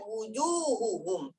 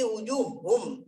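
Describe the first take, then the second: First: Every syllable, including the middle 'hu', is pronounced. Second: The middle 'hu' syllable is left out. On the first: The speaker calls it right. "Padahal wujuhuhum" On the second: The speaker calls it wrong. "Tapi wujuhum kita bilang. Nah, tidak boleh"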